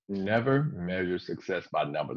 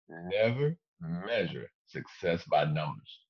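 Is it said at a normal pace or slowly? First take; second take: normal pace; slowly. First: It is said at a normal pace. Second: It is said slowly and deliberately.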